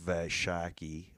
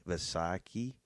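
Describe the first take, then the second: First: Vaishaki with a "sh" sound, slowly; unsure pronunciation. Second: Vaisakhi with an "s" sound, not sh; second pronunciation attempt. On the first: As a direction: sound out "Vaishaki", hushing the middle consonant as sh. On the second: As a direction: try "Vaisakhi" with a plain s in the middle. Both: Real, not acted. Tries two pronunciations of holiday.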